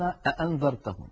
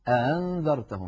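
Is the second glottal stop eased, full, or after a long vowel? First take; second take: full; eased. First: Both glottal stops are fully pronounced, back to back. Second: The second glottal stop is softened, not fully closed. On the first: "كانت تبقي هذا الأمر على حاله فيقولون أأنذرتهم، ينطقون الهمزتين هكذا" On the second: "كان يسهل الهمزة الثانية"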